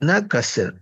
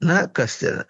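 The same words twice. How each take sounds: No difference in how they are said.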